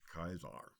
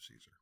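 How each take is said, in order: First: The word begins with a hard k sound. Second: The word begins with an s sound. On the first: This is the classical Latin pronunciation. "in classical Latin, a C is pronounced as a hard C or like a K" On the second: This is the English pronunciation. "and then in English becomes Caesar"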